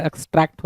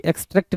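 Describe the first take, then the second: First: एक्सट्रैक्ट said as "ex-TRACT", with an open a; correct vowel. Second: एक्सट्रैक्ट said as "ex-TRECT", with an e; wrong vowel. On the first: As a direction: say एक्सट्रैक्ट with "a" as in "track". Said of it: "होता है". (एक्सट्रैक्ट में खुला "ऐ" बोलें) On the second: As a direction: say एक्सट्रैक्ट with "e" as in "trek". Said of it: "नहीं होता". (एक्सट्रैक्ट को "एक्सट्रेक्ट" बोलें, ए की मात्रा से) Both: Shown as a demonstration.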